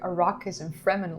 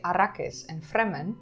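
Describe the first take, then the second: First: The names are said with an English accent. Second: The names are said with a Dutch accent. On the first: It is the way viewers would prefer. "you probably would enjoy Arrakis and Fremmen a lot more" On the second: It is the speaker's natural way of saying them. "For me, it's naturally to say"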